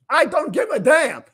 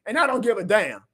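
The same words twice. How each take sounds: First: Higher and louder, hitting I hard; real defiant outburst; fired-up shout. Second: Said in the usual way. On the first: Real, not acted. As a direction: repeat it raised to a near yell. Fired-up rant after a win.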